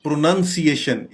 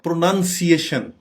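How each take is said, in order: Both takes have the same delivery.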